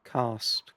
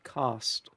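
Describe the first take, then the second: First: The vowel sounds like the a in cast. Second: The same.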